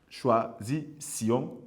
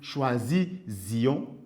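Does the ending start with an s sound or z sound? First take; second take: s sound; z sound. First: The ending starts with an s sound. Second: The ending starts with a z sound. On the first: The speaker calls it right. "avec son S dédoublé" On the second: The speaker calls it wrong. "on ne pourra pas dire"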